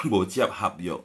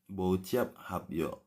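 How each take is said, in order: First: Said in the usual way. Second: Bociap hapyo said slowly and softly; slow demonstration. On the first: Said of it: "Bociap aja bilang gitu". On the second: Shown as a demonstration. Teacher repeating the phrase slowly for the class. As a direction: stretch out Bociap hapyo gently. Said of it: "bociap hapyo itu putus kontrak".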